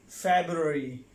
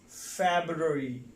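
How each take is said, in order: No difference in how they are said.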